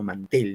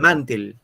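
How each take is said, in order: First: The stress is on the second syllable. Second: The stress is on the first syllable. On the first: "Sino mantel" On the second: "Si fuera en man diría mantel"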